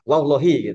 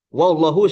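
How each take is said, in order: First: The word ends with an 'i' vowel. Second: The word ends with an 'u' vowel. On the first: The speaker calls it right. "yang benar adalah wallahi" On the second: The speaker calls it wrong. "nah itu salah"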